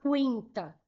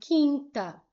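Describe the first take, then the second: First: A u sound is heard after the q. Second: No u sound is heard after the q. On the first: The speaker calls it wrong. "eu não falo quinta" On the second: The speaker calls it right. "falo quinta"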